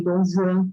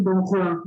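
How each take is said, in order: First: "Dom Juan" said French-style as "don zhuan"; French pronunciation. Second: Juan with a breathy H sound, "hwan"; non-French pronunciation. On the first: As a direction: start Juan on a buzzing ZH sound. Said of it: "a pronúncia do J em francês". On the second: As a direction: say Juan starting with an H, as in "Dom Juan" said "dom hwan". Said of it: "eles não dizem Dom Juan". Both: Shown as a demonstration.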